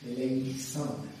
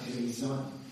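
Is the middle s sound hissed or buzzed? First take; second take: hissed; buzzed. First: The middle s is a sharp, hissed s. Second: The middle s is a buzzed z sound. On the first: The speaker calls it right. "It's like two S's" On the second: The speaker calls it wrong. "not Eleison"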